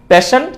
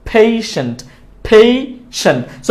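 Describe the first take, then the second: First: Quick, rising "pe-sen" for পেশেন্ট; plain e in পেশেন্ট; wrong pronunciation. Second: Falling পেশেন্ট as "phei-sent"; correct pronunciation. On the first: Teacher contrasting for learners, পেশেন্ট without a glide. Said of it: "পেশেন্ট না". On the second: Teacher drilling learners, পেশেন্ট with a long glide. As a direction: draw out ei in পেশেন্ট. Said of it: "সঠিক উচ্চারণটা". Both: Shown as a demonstration.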